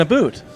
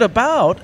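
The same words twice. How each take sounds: First: "a boot", about with a Canadian oo vowel; mock Canadian accent. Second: Said in the usual way. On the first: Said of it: "it wasn't a boot". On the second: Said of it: "'cause she said".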